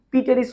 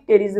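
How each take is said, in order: First: "পি টেরিস" with the initial P sounded as a separate "pee"; P pronounced aloud. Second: "টেরিস" starting straight on the T, no P; silent P. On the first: Teacher showing students the wrong reading, "পি টেরিস" with the P sounded. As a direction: say "পি টেরিস" as pee-teris, voicing the silent letter. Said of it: "পি টেরিস উচ্চারণ হয় না". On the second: Teacher showing students the correct reading, "টেরিস" with silent P. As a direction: say "টেরিস" as teris, leaving the P silent. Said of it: "উচ্চারণ হয় কি টেরিস". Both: Shown as a demonstration.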